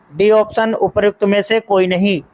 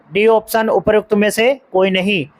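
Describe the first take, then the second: The two takes are said the same way.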